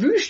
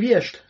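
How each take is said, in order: First: The vowel is a rounded ü sound. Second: The vowel is an unrounded i sound.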